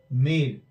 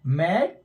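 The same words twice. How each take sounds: First: मेड with long 'ay' as in made; मेड rhyming with shade; vowel contrast. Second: मैड with open 'a' as in cat; मैड rhyming with bad; vowel contrast. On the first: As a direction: say मेड as English 'made', low and falling. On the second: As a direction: say मैड as English 'mad', rising. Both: Shown as a demonstration. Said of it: "मैड में ए और मेड में ए".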